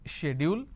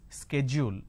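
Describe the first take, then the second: First: The word is said in a British accent. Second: The word is said in an American accent. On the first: "the British pronunciation is schedule" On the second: "the American pronunciation is schedule"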